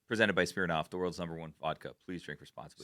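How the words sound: The pitch falls like a statement. It is stated as fact. The speaker calls it right. "Stated as fact"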